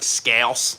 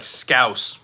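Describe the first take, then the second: First: "Scouse" in a Philadelphia accent; Philly-accented scouse. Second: "scouse" with the vowel of "house"; "scouse" as locals would say it; native-style scouse. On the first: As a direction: say "Scouse" with a twanged Philly vowel. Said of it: "I'm over here like". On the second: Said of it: "it's probably, like". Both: Shown as a demonstration.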